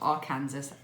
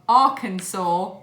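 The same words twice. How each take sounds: First: The name is said the British-style way. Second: The name is said the local American way. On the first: The speaker calls it wrong. "as I had been saying it because I'm a stupid British person" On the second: The speaker calls it right. "that's how you say it"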